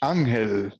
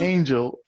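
First: The name is said with Spanish pronunciation. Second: The name is said with English pronunciation. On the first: Used when speaking Spanish. "You talk to me in Spanish?" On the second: Used when speaking English. "Talk to me in English?"

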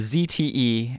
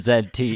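First: The letter Z is said the American way, zee. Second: The letter Z is said the Canadian way, zed.

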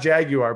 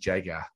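First: The word is said with an American pronunciation. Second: The word is said with a British pronunciation. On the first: "not Jaguar" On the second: "like the way they say it in England"

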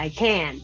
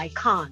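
First: It is said in an American accent. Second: It is said in a British/Australian accent.

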